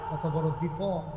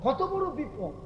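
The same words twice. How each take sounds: First: Said in the usual way. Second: "কত বড় বিপদ" pitched high, falling at the end; high exclamation. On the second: Real, not acted. Preacher stressing the danger to listeners, "কত বড় বিপদ" exclaimed high.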